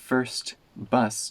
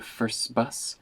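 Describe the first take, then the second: First: The t at the end of first is heard. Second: The t at the end of first is dropped.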